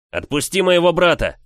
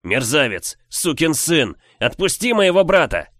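First: Furious shout at the bully; yelling. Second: Furious shout, louder and higher; yelling. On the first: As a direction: yell it with full force. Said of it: "заорал я". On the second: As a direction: scream the insults in rage. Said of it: "Продолжая кричать". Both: Acted.

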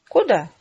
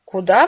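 First: Said in the usual way. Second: Loud, exclaimed question thrown back; exclaimed echo. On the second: A narrator's reading. Father throws his daughter's question back, exclaiming. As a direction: echo the question as an outburst, much louder. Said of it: "воскликнул он".

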